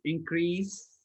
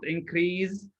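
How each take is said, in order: First: "increase" with a hissed s sound, slowly; teacher models "increase" with an s; correct increase. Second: "increase" with a buzzing z sound, slowly; teacher shows the wrong "increase" with z. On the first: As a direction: say "increase" ending in a clear s, not z. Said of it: "with sa sound all the time". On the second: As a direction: say "increase" with a z where the s belongs. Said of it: "not increase". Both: Shown as a demonstration.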